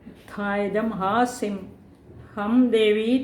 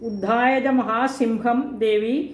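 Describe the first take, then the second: First: Mahasim and ham are read as separate words. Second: Mahasim and ham are joined into one word. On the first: The goddess raised a great sword and cried 'ham'. The speaker calls it right. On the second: The goddess rode on a great lion. The speaker calls it wrong.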